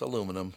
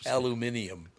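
First: The word has no extra syllable, four in all. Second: The word has an extra syllable, five in all. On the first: This is how the speaker's own people say it. The speaker calls it right. "No, it's aluminum" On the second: This is how British people say it. The speaker calls it wrong. "they put an extra I in there"

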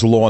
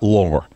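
First: The word ends in a vowel without an r. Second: The word ends with an added r sound. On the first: The speaker calls it right. "the word is law" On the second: The speaker calls it wrong. "not lore"

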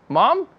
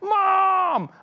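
First: It is said with confused surprise. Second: It is said with happy excitement.

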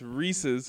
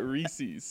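First: It is said as the possessive of Reese. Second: It is not said as a possessive form. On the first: The speaker calls it right. "it's Reese's ... They belong to Reese. ... there's a possessive apostrophe" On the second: The speaker calls it wrong. "not Reese's"

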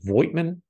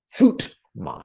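First: It begins with a V sound, with the I sounded. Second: It begins with an F sound, with no I sounded. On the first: The speaker calls it wrong. "I believe pronounced it Voigtman. No" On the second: The speaker calls it right. "The V is sharp like an F, and the I is silent"

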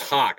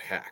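First: The vowel is a long 'aw' sound. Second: The vowel is a short 'a' sound. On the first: The speaker calls it right. "it's Hawk" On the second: The speaker calls it wrong. "not Hack"

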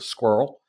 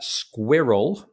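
First: The word is said as one syllable. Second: The word is said with two full syllables. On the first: "Americans tend to just say it in one, you know, syllable" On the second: "because we really round out all of the sounds in it"

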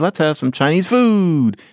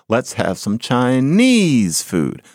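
First: The stress falls on the word food. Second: The stress falls on the word Chinese. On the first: The dish is still new and exotic. The speaker calls it wrong. "you don't say" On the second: The dish has become ordinary and familiar. The speaker calls it right. "You say"

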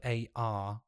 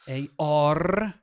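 First: The R sound is weak or left out. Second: The R sound is strongly and clearly pronounced.

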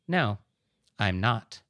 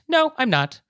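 First: It is said in a flat tone. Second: It is said in an upbeat tone.

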